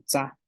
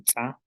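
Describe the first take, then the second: First: Said in the usual way. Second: "tsa" with an ejective ts; glottalised TS. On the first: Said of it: "la tsa sin la glotal". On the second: Shown as a demonstration. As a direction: pop the ts in "tsa" with a closed glottis. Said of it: "con la glotal".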